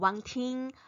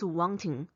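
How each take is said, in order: First: The last syllable ends in a front nasal. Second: The last syllable ends in a back nasal. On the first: The speaker calls it wrong. "it's not wanting" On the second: The speaker calls it right. "so it's wanting"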